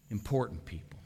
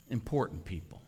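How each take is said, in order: Both takes have the same delivery.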